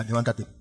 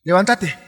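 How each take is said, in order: First: Softer, lower levántate said almost under the breath; soft urging. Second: Firm command. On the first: Preacher urging the listener to rise, softly. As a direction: coax "levántate" gently, low and soft. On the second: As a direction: call out "Levántate" as a firm order. Urging the listener to rise. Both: Acted.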